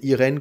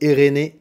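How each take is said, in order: First: The name is pronounced the French way. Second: The name is pronounced the Brazilian Portuguese way. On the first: "comme en français" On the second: "comme au Brésil"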